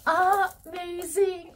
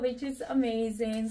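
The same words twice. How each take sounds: First: High, slow, louder amazing; savouring amazing; drawn-out gush. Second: Said in the usual way. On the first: Real, not acted. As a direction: stretch the word out in awe. Admiring the bag's compartments.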